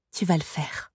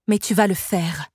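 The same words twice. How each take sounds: First: Soft, subdued insistence; murmured instruction. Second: Firm, brooking no argument; final, no appeal. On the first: Sorceress to the girl who must obey, softly murmured. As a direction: let the voice drop, quietly settling it. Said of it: "murmura Soribel". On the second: Sorceress overruling the wailing girl, firm and final. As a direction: state it as a settled order. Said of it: "d'un ton sans appel". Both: A narrator's reading.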